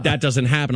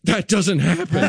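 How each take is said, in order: First: Said in the usual way. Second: High-pitched, stunned disbelief; mock terrified. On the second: Doctor after the baby flips, high mock-terrified disbelief. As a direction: imitate a spooked doctor, voice pitched up. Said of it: "like, terrified".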